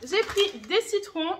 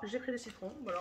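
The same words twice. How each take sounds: First: Slow, louder, higher announcement of the lemons; "J'ai pris des citrons" drawn out slowly, louder and higher; emphatic announcement. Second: Much softer puzzled repeat of "j'ai pris des citrons"; "j'ai pris des citrons" said quietly, half to herself; puzzled aside. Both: Real, not acted. Puzzled repeat of her own line.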